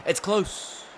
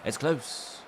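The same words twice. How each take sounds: First: High squeaky commentator call; high-pitched rising. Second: Put-on lightly done British accent. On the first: Retold or imitated. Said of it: "they'd be like". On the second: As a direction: say it like a British commentator. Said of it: "They said in a British, British accent".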